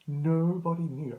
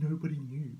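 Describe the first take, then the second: First: "Nobody knew", higher and louder on NOBODY; emphatic repeat. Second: Said in the usual way. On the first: Real, not acted. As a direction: lean hard on "Nobody" for emphasis.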